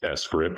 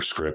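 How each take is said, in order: First: It starts with the letter name 'ess'. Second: It sounds like the plain word 'script'.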